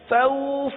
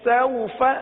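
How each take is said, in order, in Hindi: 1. स्वर खिंचा हुआ और लंबा है। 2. स्वर छोटा और नरम है, लंबा नहीं किया गया। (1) "तो ये खींच गया, और खींच खींचना नहीं है" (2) "बगैर खींचे, बगैर झटका दिए नरमी के साथ पढ़ते हैं"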